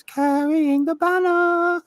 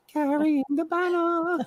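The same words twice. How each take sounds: First: High, slow, hammed-up New York "banner" sung out like a newsboy; mock Broadway New York belt; New York accent. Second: High, slow, hammed-up New York "banner" as "banna"; mock Broadway New York accent; bad New York accent. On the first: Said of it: "the eight-year-old had to learn how to sing Carrying the Banner". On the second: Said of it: "Did he really say that in a bad New York accent?".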